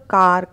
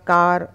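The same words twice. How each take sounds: No difference in how they are said.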